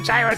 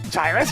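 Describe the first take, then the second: First: The word sounds like 'heroes'. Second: The word does not sound like 'heroes'.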